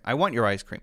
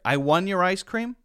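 First: The word 'want' ends with a brief stopped T. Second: The word 'want' ends with no T at all. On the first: The speaker calls it right. "It's still there. You hear that stop" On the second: The speaker calls it wrong.

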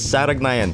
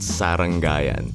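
First: The second syllable sounds like 'rag', then 'nayan'. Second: The second syllable sounds like 'rang', then 'ayan'. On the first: The speaker calls it right. "It's Saragnayan, people" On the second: The speaker calls it wrong. "not Sarangayan"

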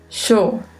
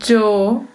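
First: The word begins with a sh sound. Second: The word begins with a dj sound. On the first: "um leve som de X" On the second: "um som de DJ"

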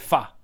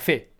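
First: The word ends in an a-like vowel. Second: The word ends in an e-like vowel. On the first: This is the Hue pronunciation. "A Hue l'ho sentito pronunciare fa" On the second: This is the Saigon pronunciation. "A Saigon invece era fe"

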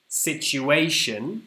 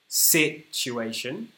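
First: The stress is on the third syllable. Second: The stress is on the first syllable. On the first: "Yeah, the third" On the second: "Let's try the first syllable"

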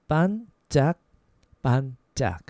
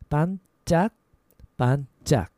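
No difference in how they are said.

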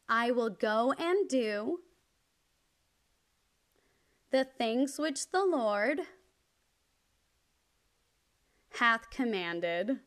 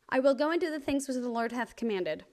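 First: The sentence is spoken slowly. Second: The sentence is spoken very quickly. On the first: "I'll slow down and you can repeat after me" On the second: "I'm going to say it really fast"

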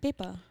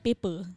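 First: It is said in a Western English accent. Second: It is said in a Malay accent, with a strong ending. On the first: "Kalau English, like angmoh ke apa dia" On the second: "Kita punya paper. our at the end is very, very strong"

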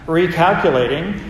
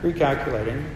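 First: The voice sounds angry and exasperated. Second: The voice sounds calm and laid back.

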